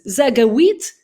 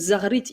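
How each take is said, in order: First: The middle consonant is a hard G sound. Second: The middle consonant is a throaty R sound. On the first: The speaker calls it wrong. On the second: The speaker calls it right.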